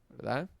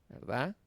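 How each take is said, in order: Both takes have the same delivery.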